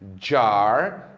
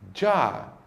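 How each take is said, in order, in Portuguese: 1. O som do R final é claramente pronunciado. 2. O som do R final fica silencioso. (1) "No inglês norte-americano, a letra R no final das palavras sempre é pronunciada" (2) "no inglês britânico, a letra R do final das palavras nunca é pronunciada"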